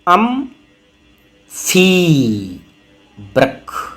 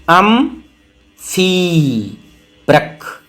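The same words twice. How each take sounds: Both takes have the same delivery.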